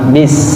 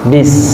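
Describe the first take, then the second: First: The word ends with an s sound. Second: The same.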